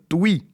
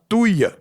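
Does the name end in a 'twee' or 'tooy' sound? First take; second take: twee; tooy. First: The name ends in a 'twee' sound. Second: The name ends in a 'tooy' sound. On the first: The speaker calls it right. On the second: The speaker calls it wrong.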